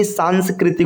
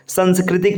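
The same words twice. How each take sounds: First: सांस्कृतिक said "saanskritik", long first aa; correct long vowel. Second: सांस्कृतिक said "sanskritik", short first a; wrong short vowel. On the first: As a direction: open सांस्कृतिक on long "saan". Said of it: "होता है". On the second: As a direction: open सांस्कृतिक on short "san". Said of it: "नहीं". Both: Shown as a demonstration.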